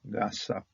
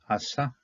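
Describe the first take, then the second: First: The word begins with a g sound. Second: The word begins with a vowel sound. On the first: This reflects where the word originally came from. "But if you know where it came from, it's Gasa" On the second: This is the official modern pronunciation. "The the official way to pronounce this is going to be Asa"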